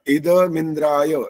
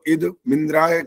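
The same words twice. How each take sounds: First: The words run together with no break. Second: The voice stops briefly after 'id'. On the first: The speaker calls it right. "ये इकट्ठा बोलना होता है" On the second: The speaker calls it wrong. "इद इद पे ऐसे रुक जाते हो ना तो द हलंत हो जाता है"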